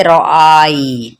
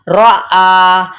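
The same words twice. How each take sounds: First: रौ आई ending in an audible ee glide; sounded ya. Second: रौ आ ending on a long aa, no y-glide; silent ya. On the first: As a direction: sound the ya at the end of रौ आई. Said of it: "जज़म होता तो शायद हम पढ़ लेते". (रौ आई के अंत में या सुनाई दे) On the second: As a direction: hold the final vowel of रौ आ, leave the ya silent. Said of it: "लेकिन ये साइलेंट हो जाएगा". (रौ आ में या साइलेंट, लंबा आ) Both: Shown as a demonstration.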